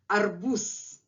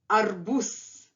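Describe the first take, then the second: First: The word ends with a hissing s sound. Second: The same.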